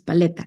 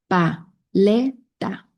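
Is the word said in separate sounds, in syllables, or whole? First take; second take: whole; syllables. First: The word is said smoothly as one whole. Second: The word is broken into separate syllables. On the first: "juntar estas sílabas" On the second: "yo te voy a decir unas sílabas"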